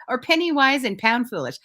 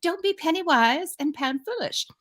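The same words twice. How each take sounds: First: Said in the usual way. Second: Put-on whispered, higher-pitched English accent. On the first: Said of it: "I think that's how she says it". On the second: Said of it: "this is my best accent".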